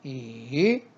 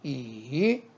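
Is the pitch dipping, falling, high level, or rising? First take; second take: dipping; dipping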